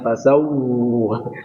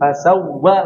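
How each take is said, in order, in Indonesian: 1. 'wa' terakhir dipanjangkan. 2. 'wa' terakhir langsung dipendekkan. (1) "Jangan fasawwa. Kalau seperti nanti lama, kelamaan" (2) "Ini fasawwa langsung aja"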